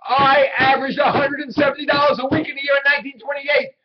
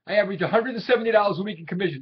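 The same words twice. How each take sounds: First: "I averaged a hundred and seventy dollars" shouted, much higher and louder, hitting "dollars" hardest; indignant shout. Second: Said in the usual way. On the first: Acted. Willie insisting to his doubting boss Howard, shouting. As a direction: bellow it back at him to force him to believe it. Repeats it after being contradicted.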